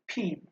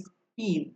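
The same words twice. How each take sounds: First: ফিন with a puff of air on the first sound; aspirated p. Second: স্পিন with no puff of air after the s; unaspirated p. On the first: Teacher showing students the sound in ফিন, aspirated p. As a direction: say ফিন with an aspirated, breath-released p. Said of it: "এখানে কিন্তু উচ্চারণ হচ্ছে ফিন". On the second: Teacher contrasting a second example, স্পিন with unaspirated p. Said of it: "আর এইখানে স্পিন". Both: Shown as a demonstration.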